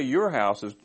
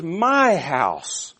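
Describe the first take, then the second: First: Said in the usual way. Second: "My" drawn out high and loud; emphatic, possessive "My", pitched up and lengthened; stress on My. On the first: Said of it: "he doesn't say". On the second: Shown as a demonstration. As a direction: punch "My" hard, then fall on "house". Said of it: "he says".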